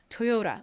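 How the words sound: It is said with a flapped r-like sound. "미국 사람들은 이거를 토요라, 토요라 뭐 이런 식으로 발음을"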